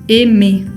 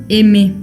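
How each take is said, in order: The two takes are said the same way.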